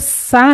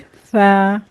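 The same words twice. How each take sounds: First: It starts with a plain hissing s sound. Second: It starts with a soft th-like sound. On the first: The speaker calls it wrong. "इसको सा नहीं पढ़ेंगे" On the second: The speaker calls it right. "बहुत ही नरमी से पढ़ेंगे"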